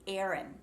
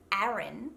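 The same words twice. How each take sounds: First: "Aaron" said like "Erin"; American E vowel. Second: "Aaron" with an open A as in back; Australian short A. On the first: Coach shows what the name becomes, "Aaron" as "Erin". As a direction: flatten the first vowel of "Aaron" to E. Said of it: "it turns into". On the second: Coach gives Australian form of name, open A in "Aaron". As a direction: open the first vowel of "Aaron". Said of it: "The same with the name". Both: Shown as a demonstration.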